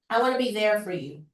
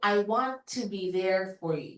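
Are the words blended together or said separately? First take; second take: blended; separately. First: The words are blended smoothly together. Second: The words are said separately, without blending. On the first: "yung parang may blending yung words mo" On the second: "Yun yung walang glide"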